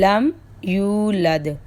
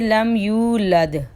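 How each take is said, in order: Both takes have the same delivery.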